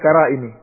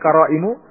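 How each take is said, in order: First: The word ends with an i vowel. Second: The word ends with a u vowel. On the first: The word is in the genitive case. "bukan pula qara'imi" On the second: The word is in the nominative case. "bukan qara'imu"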